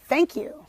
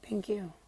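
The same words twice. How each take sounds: First: It is said firmly and clearly, sounding confident. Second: It is said quietly and hesitantly, sounding timid. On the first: The person is sure of herself. The speaker calls it right. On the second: The person is unsure of herself. The speaker calls it wrong.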